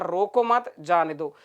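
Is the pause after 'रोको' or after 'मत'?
after मत. There is a pause right after 'मत'.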